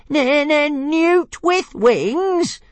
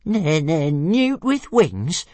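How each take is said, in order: First: Very high, very slow squeaky dragon voice; outraged stammering dragon. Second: High, slow stuttering dragon voice; squeaky offended stammer; stammering little dragon. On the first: Tiny dragon squealing the insult back, very high and drawn out. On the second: Small dragon repeating the insult, high and slow. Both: A narrator's reading. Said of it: "repeated Toothless".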